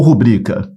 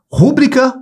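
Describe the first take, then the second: First: Rubrica leaning on BRI; second-syllable stress. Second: Rúbrica punched on RÚ; first-syllable stress. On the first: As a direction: offer rubrica stressed in the middle. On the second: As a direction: offer rúbrica with the stress up front. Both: Shown as a demonstration. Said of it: "a pronúncia não é rúbrica".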